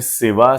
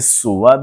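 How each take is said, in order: First: The vowel after the s is i. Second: The vowel after the s is u. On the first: This is the most common pronunciation. "सबसे गालिब तलफ़ुज़ है सीन की कसरा से" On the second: This is a less common pronunciation. "सीन की दम्मा से सुवा भी बोला जाता है"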